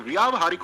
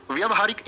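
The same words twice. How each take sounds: First: व्यावहारिक said as "vyaa-va-haarik"; correct long vowel. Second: व्यवहारिक said as "vya-va-haarik"; wrong short vowel. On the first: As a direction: lengthen the first syllable of व्यावहारिक. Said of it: "व्यावहारिक होगा". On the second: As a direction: keep the first syllable of व्यवहारिक short. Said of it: "नहीं भैया". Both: Shown as a demonstration.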